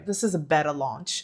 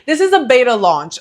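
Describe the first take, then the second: First: "beta" said as BET-uh, softer and lower; chosen pronunciation. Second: "beta" said as BAY-tuh; settled pronunciation. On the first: Creator testing her chosen English word, "beta" as BET-uh. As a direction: say "beta" with a short e, BET-uh, quietly. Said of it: "I'm gonna say beta". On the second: Creator restarting after laughing, "beta" firmly as BAY-tuh. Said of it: "how to pronounce beta in English". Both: Shown as a demonstration.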